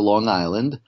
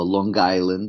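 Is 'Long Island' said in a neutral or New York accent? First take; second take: Neutral; New York. First: It is said in a neutral, standard accent. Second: It is said in a local New York accent.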